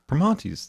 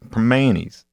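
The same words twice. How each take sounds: First: The name is said with a French-like pronunciation. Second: The name is said with a local Pittsburgh pronunciation. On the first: The speaker calls it wrong. "She goes" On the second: The speaker calls it right. "you're not saying it like you live in Pittsburgh. You got to say it proper"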